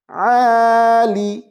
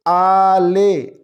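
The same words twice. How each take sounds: First: आली said with a long final "ee", as "aalee", very slowly; correct pronunciation. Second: आले said with a final "e", as "aale", slowly; wrong pronunciation. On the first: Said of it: "आइन और लाम को आली". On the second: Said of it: "आले नहीं है". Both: Shown as a demonstration.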